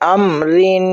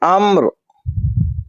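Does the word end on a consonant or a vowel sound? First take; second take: vowel; consonant. First: The word ends with a final vowel and n. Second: The word stops on a bare final consonant.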